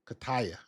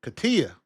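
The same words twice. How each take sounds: First: Kataya said as kuh-TIE-uh; trying out pronunciation. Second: Katia said as kuh-TEE-uh; corrected pronunciation. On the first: Host testing a viewer's name, Kataya with a TIE sound. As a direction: softly try Kataya with TIE in the middle. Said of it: "write that in the chat for me phonetically". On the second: Host reading the viewer's phonetics, Katia with a TEE sound. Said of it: "for the phonetics". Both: Shown as a demonstration.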